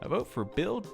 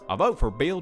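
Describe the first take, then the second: First: It is said in his ordinary voice. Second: It is said in an invented character voice.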